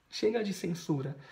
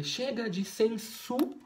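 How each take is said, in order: First: Said in the usual way. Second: "censura" cortada depois de SU, pausa antes do RA; palavra interrompida. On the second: Shown as a demonstration. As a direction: parar no meio de "censura", em suspenso. (corte antes da última sílaba) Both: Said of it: "ela não conseguiu acabar".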